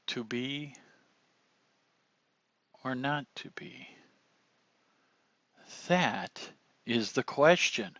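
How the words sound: The line pauses clearly at each punctuation mark. The speaker calls it right. "utilizing the punctuation there"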